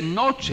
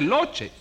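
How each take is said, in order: First: The word begins with an N sound. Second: The word begins with an L sound. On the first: The speaker calls it right. "Se dice noche" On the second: The speaker calls it wrong. "pero no se dice loche"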